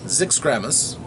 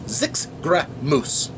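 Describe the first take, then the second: First: The last syllables run together with uneven stress. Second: Every syllable gets equal strong emphasis. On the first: The speaker calls it wrong. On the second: The speaker calls it right. "You emphasize every syllable"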